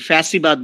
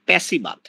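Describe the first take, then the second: First: The word begins with an f sound. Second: The word begins with a p sound. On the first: The speaker calls it right. "এই ফ্যাসিবাদ বলতে পারে না" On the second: The speaker calls it wrong. "বলে হচ্ছে প্যাসিবাদ"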